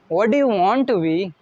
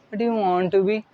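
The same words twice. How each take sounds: First: It is said confidently with a smile. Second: It is said flatly without confidence.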